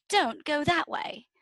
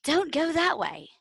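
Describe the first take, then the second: First: Put-on higher, slow British-accented repeat of "don't go that way"; insistent mock British accent. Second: Light, higher British warning from a movie worm; a quick British-accented warning, pitched up; mock British accent. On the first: Worm repeating its warning to the girl, slow mock British accent. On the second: Retelling a movie worm's warning, in a mock British accent. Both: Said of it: "a British accent".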